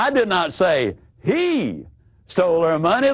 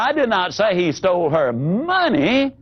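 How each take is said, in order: First: The word he carries the stress. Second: The word money carries the stress.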